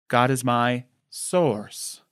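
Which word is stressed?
source. The stress is on the word source.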